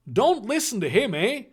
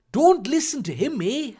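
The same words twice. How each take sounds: First: Higher-pitched, hammed-up Canadian "eh?"; cartoon Canadian accent; overdrawn Canadian accent. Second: Put-on high Canadian accent slipping into Irish; lilting, Irish-sounding Canadian accent; botched Canadian accent. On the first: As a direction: overdo a Canadian accent, tag question rising. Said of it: "overdrawn Canadian accent". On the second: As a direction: attempt Canadian and land in Irish. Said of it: "she's Irish now".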